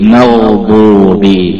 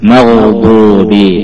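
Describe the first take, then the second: First: The gh sound is drawn out continuously. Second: The same.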